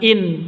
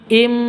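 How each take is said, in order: First: The syllable ends with an n sound. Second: The syllable ends with an m sound. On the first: The speaker calls it wrong. "bukan in" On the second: The speaker calls it right. "tapi im"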